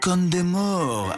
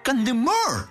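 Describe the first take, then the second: First: The name is said with a French-style pronunciation. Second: The name is said with a plain Spanish pronunciation. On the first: This is how the speaker's father says it. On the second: This is how it is said on television.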